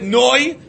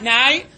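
First: The vowel sounds like 'oy'. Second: The vowel sounds like 'ai'. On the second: "and not Nai"

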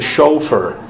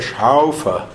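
First: The first vowel sounds like o. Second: The first vowel sounds like au. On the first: This is how it is said in America. "In America, it's a Schaufer. It's an O" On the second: This is how it is said in Germany. "In Germany, it's a Schaufer. It's an Au"

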